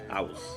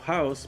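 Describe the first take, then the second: First: The h sound at the start is dropped. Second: The h sound at the start is pronounced.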